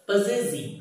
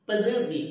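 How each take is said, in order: The two takes are said the same way.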